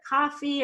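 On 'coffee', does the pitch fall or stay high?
stays high. The pitch stays high on both syllables. The speaker calls it right. "I stayed high on both syllables of coffee"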